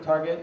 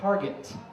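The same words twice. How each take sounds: First: The name is said in plain English. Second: The name is said with a French accent.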